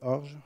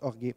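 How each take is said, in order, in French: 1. La voyelle finale est muette. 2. La voyelle finale est bien prononcée. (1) "si on dit, non" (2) "ça se prononce orgué"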